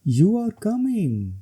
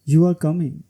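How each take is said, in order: First: It has an exclaiming tune. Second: It has a falling statement tune. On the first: It expresses strong feeling. "ये exclamation है।" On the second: It states a fact. "सबसे पहले falling tone. ... ये statement है।"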